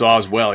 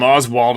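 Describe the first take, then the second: First: The name ends with an 'ell' sound. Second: The name ends with an 'ald' sound. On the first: The speaker calls it right. "but it's Oswell" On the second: The speaker calls it wrong. "I screwed up on the first video. I called him Oswald"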